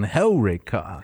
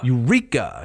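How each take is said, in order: First: The stress is on the first syllable. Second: The stress is on the second syllable. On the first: The speaker calls it right. "It goes on Helreka" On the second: The speaker calls it wrong. "They would put the emphasis on the penult"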